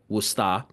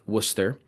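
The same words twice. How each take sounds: First: It is said in a local Massachusetts accent. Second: It is said in a standard pronunciation.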